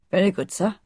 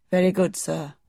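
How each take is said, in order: First: Lightly voiced old servant, deferential; respectful gardener. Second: A hint of a deferential old servant; plain, polite yes-sir to his master; respectful gardener. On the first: Gardener accepts his young master's orders, lightly deferential. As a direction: say it as a dutiful servant would. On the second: Old gardener answers the young Rajah, lightly voiced and deferential. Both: A narrator's reading. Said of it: "replied Mister Roach".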